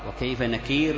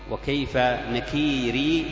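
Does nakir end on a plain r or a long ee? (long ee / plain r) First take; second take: plain r; long ee. First: The word stops on a bare r sound. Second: The word stops on a long ee sound. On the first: "بالوقوف على الراء" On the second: "بالياء وصلا ووقفا ... بالوقف"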